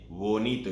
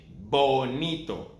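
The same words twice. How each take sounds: First: The b is soft, lips barely touching. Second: The b is strong, lips pressed together. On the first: The speaker calls it wrong. "You don't say bonito" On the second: The speaker calls it right. "strong sound, strong B"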